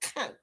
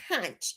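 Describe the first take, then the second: First: The word ends with a k sound. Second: The word ends with a ch sound. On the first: The speaker calls it right. "K O N K" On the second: The speaker calls it wrong. "You do not pronounce the C H"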